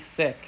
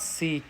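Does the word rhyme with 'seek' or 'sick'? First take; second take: sick; seek. First: The vowel is short, like in sick. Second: The vowel is long, like in seek. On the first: The speaker calls it right. "It's actually sick" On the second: The speaker calls it wrong. "It's not seek"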